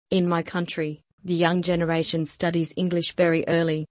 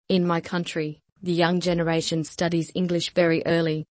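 No difference in how they are said.

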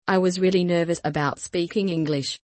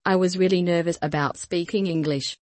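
No difference in how they are said.

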